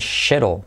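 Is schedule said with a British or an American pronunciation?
British. It is said with a British pronunciation. "En Inglaterra dicen schedule"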